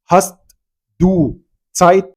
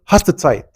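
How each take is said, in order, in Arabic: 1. كل كلمة، بما فيها 'du'، تُنطق كاملة ومنفصلة. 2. 'du' تُدمج في 'hast'، فتصبح 'haste Zeit'. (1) "هو ما حدش بيتكلم بالطريقه دي" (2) "فبيقول لك هاست سايت"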